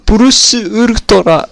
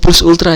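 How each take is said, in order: First: It is said with Japanese-style syllables. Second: It is said with plain English sounds. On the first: "harus pakai logat Jepang" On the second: "Ngomong plus ultra aja susah"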